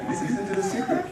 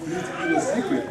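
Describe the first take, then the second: First: Listen, listen to the secret whispered breathily, no voice; hushed storyteller whisper. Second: Said in the usual way. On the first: Shown as a demonstration. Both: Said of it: "if you're quiet".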